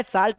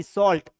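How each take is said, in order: First: साल्ट as "saalt", open "aa" vowel; wrong pronunciation. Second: सॉल्ट as "sawlt", rounded "aw" vowel; correct pronunciation. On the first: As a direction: give साल्ट the mistaken "aa" sound. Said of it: "क्या नहीं पढ़ना है". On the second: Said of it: "साल्ट नहीं, सॉल्ट". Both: Shown as a demonstration.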